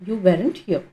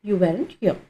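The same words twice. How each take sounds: The two takes are said the same way.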